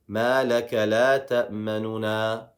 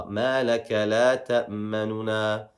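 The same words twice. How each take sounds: Both takes have the same delivery.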